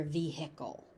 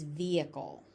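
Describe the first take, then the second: First: "vehicle" as vee-HICK-ul, h sounded, lower and softer; common variant. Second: "vehicle" as VEE-ih-cul, silent h; standard pronunciation. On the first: Teacher noting what you may hear, vee-HICK-ul. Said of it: "but you may hear". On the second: Teacher giving the standard form, VEE-ih-cul. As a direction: drop the h in "vehicle", stress first. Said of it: "the standard pronunciation is". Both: Shown as a demonstration.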